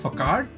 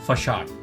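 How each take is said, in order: First: The word is read with a 'k' sound. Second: The word is said with an 's' sound. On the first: "It is written as" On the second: "but it's pronounced as"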